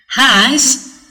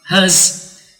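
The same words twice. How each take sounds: First: The word is said with a full vowel. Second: The word is said with a reduced vowel. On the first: "for the strong form" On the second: "has or as for the weak form"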